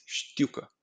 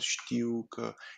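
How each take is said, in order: First: The word is said quickly in one short burst. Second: The word is said slowly, syllable by syllable. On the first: The speaker calls it right. "It's very fast going out of your tongue" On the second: The speaker calls it wrong. "There's no știucă"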